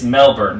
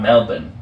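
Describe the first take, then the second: First: It is said with a plain American pronunciation. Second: It is said with an imitated Australian pronunciation. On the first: The speaker calls it right. "Unless you are literally Australian, it's" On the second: The speaker calls it wrong.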